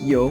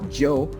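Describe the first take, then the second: First: It begins with a y sound, like yes. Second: It begins with a j sound, like Joe. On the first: The speaker calls it right. "It's just yo" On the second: The speaker calls it wrong. "some Spanish speakers, they may tend to, to use it or to pronounce it as Joe, uh, but it's not"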